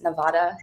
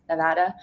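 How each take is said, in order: First: Nevada said "Ne-VAH-da", broad ah in the middle; wrong pronunciation. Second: Nevada said "Ne-VAD-a", middle vowel as in "cat"; correct local pronunciation. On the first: Creator showing the mistaken way to say the state's name, Nevada mispronounced as "Ne-VAH-da". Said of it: "it's not pronounced Nevada". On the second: Creator correcting the state's name after a tourism job, Nevada pronounced "Ne-VAD-a". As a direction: say Nevada the local way, with a short flat a. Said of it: "pronounced Nevada, it's Nevada". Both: Shown as a demonstration.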